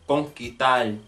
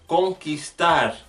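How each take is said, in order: First: The s sound before the t is dropped. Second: The s sound before the t is pronounced.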